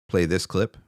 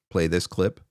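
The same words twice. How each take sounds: The two takes are said the same way.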